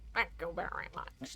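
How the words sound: It is said in a put-on Wesker voice.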